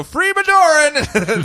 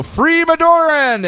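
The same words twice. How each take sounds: First: High, slow yell through a laugh; mock battle cry. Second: High, slow rallying cry; mock battle cry. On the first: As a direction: call it out the window like a joke. Yelled out window, laughing. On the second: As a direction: shout it like fanatic soldiers.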